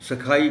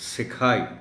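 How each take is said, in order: First: The first syllable has a vowel other than 'i'. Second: The first syllable has an 'i' vowel. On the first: The speaker calls it wrong. "गलती से" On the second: The speaker calls it right. "सीन के नीचे ज़ेर के साथ"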